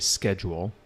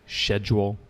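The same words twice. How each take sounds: First: It is said with an American pronunciation. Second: It is said with a British pronunciation. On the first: "in America we say schedule" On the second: "criticize a British person for saying schedule"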